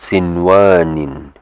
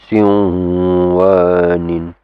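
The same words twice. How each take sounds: First: The n sound is pronounced clearly and separately. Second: The n sound merges into the following w. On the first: The speaker calls it right. "it's sinwanin. ... It will be just pronounced clearly" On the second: The speaker calls it wrong. "you don't go sinwanin"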